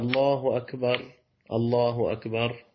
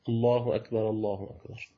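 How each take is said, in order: First: The first r is silent with a stop after it. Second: The first r carries an a vowel into the next word. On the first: "التسكين" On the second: "الفتح أولى"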